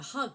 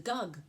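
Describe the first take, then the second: First: The word begins with an h sound. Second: The word begins with a g sound. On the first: The speaker calls it right. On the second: The speaker calls it wrong.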